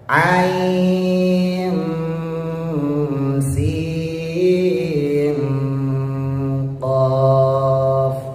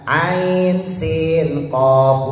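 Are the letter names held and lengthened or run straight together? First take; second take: held; run together. First: The sounds are held between the letter names. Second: The letter names run straight into each other. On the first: The speaker calls it right. "tapi harus ditahan" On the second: The speaker calls it wrong. "Jadi bacanya bukan ain sin qaf, bukan"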